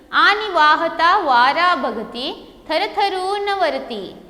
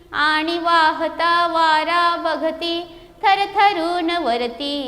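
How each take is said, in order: Both takes have the same delivery.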